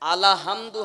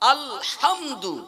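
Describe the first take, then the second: First: An extra vowel is inserted after the 'l'. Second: The 'l' runs straight into 'hamdu'. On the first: The speaker calls it wrong. "আলাহামদু হবে না" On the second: The speaker calls it right. "শব্দটা হবে আলহামদু"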